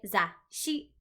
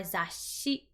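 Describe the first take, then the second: First: "za, shi" split by a silent gap; true pause. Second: "za, shi" joined by a long hissing s; "za, shi" with no silent gap, the s carried through; drawn-out S. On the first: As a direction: stop after "za", then start "shi" afresh. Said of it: "with a true pause". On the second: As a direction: lengthen the s in the middle of "za, shi". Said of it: "with an S kind of drawn out". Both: Shown as a demonstration.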